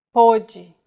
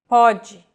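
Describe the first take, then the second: First: Pode with a closed o, like poh-jee. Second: Pode with an open o, like paw-jee. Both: Shown as a demonstration. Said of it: "words that are written in the same way".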